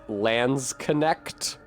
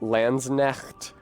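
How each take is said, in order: First: The K before the N is pronounced. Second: The K before the N is silent. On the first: The speaker calls it wrong. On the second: The speaker calls it right.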